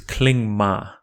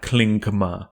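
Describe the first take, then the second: First: The g after ng is not fully sounded. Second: The g after ng is fully sounded. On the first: The speaker calls it right. "is not fully articulated before another nasal consonant" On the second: The speaker calls it wrong.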